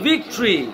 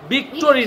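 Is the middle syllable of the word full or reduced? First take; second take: reduced; full. First: The middle vowel is dropped, giving two beats. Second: The middle syllable has a full 'o' vowel. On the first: The speaker calls it right. "ভিক্টরি বলো" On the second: The speaker calls it wrong. "ভিক্টোরি না"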